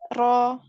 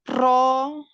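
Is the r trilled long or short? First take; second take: short; long. First: The r has only a light, brief trill. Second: The r is trilled with many strong vibrations. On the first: The speaker calls it right. "tetapi ro" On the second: The speaker calls it wrong. "bukan ro"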